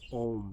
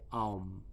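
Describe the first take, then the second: First: The vowel is a single plain 'o' sound. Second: The vowel glides from 'a' into 'u'. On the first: The speaker calls it wrong. "which most people mispronounce as Om" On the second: The speaker calls it right. "it's Aum, A-U-M"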